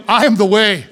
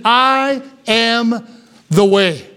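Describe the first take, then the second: First: Said in the usual way. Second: I am, pause, the way; slow, spaced emphasis. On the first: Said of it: "He said, "I am the way". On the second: Shown as a demonstration. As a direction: lean on each word of "I am the way". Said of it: "He said".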